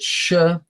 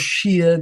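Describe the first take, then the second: First: The vowel sounds like the one in 'fire'. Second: The vowel sounds like the one in 'fear'. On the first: "You call it shire or sheer" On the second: "You call it shire or sheer"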